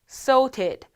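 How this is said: It is said with a British accent. "영국식 발음 sorted"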